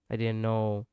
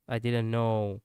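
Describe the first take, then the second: No difference in how they are said.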